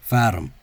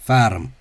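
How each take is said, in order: The two takes are said the same way.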